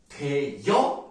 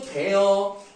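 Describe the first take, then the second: First: A 'y' glide comes before the second vowel. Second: The second vowel is a plain 'eo' sound. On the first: This variant is also accepted. "그러나 대여 ... 로 발음하는 것도 인정입니다" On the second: This is the standard form. "기본적으로 대어 ... 발음하는 게 맞아요. 이게 원칙이에요"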